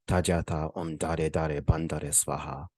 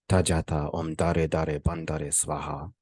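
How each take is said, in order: No difference in how they are said.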